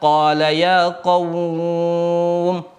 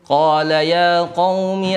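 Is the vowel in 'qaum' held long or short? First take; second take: long; short. First: The vowel in 'qaum' is drawn out longer. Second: The vowel in 'qaum' is held briefly. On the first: "kalau kita membacanya dengan matlayin atau matlin" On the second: "ini dibaca satu harokat"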